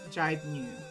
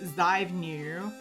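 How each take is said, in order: First: It starts with a j and has a b. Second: It starts with a z and has a v. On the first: This is how Korean speakers say it. The speaker calls it right. "The Z becomes a J, the V becomes a B" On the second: This is how the spelling reads in English. The speaker calls it wrong. "It's spelled like Zybenu, but like it's not pronounced that way"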